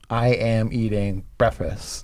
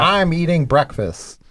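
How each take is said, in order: First: The words 'I am' are said in full. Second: The words 'I am' are contracted to 'I'm'. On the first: It imitates the comedian's style of delivery. "the trick there is the I am" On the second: It is the ordinary way of saying it. "instead of saying"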